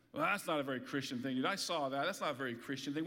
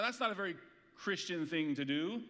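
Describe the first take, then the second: First: Lower, faster mock tut-tut; mock disapproving scold. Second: Said in the usual way. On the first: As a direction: mimic a prim scold, low and quick. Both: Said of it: "You've probably heard someone say".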